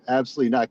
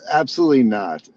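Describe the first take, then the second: First: Said in the usual way. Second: Loud emphatic. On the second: Real, not acted. Responding emphatically.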